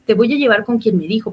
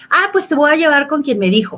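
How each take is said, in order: First: Said in the usual way. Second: Raised challenge. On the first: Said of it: "me estoy acordando de otras escenas". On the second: Retold or imitated. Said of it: "¿Quién te dijo?".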